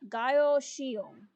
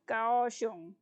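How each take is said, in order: First: The first syllable has an 'eye' vowel. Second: The first syllable has an 'ow' vowel. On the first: The speaker calls it wrong. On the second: The speaker calls it right.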